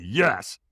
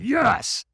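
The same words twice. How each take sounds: First: Said in the usual way. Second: High-pitched, more forceful yes; mock effortful cry, pitched up; stronger yes. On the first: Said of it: "And I went". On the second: Firewalker obeys trainer's call for more, emphatic yes.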